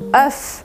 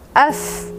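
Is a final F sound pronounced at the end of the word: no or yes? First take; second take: yes; yes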